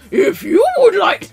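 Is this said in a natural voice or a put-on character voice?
character voice. It is said in a put-on puppet character voice.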